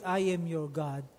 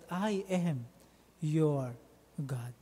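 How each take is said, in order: First: The word 'your' is not stressed. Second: The word 'your' is stressed. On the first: God simply states who He is. The speaker calls it wrong. "He did not say that" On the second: God belongs to us personally and intimately. The speaker calls it right. "this is ownership language"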